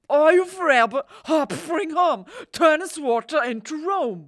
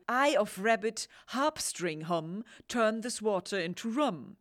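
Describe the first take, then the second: First: High, shouted slurred spell; mumbled Irish accent. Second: Said in the usual way. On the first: Retold or imitated. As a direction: yell the spell half-swallowed, Irish. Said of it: "so undeutlich ausgesprochen". (laut, hoch und genuschelt mit irischem Akzent) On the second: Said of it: "Eigentlich heißt es wohl".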